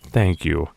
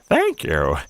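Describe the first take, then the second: First: It is said in the speaker's normal voice. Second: It is said in a put-on old lady voice.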